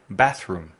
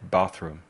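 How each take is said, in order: First: BATHROOM with the short northern English 'a' in bath. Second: BATHROOM with the long southern English 'ah' in bath. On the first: Teacher showing learners the northern England version, bathroom with short 'a'. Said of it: "En el norte se dice". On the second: Teacher showing learners the southern England version, bathroom with long 'ah'. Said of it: "en el sur de Inglaterra se dice". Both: Shown as a demonstration.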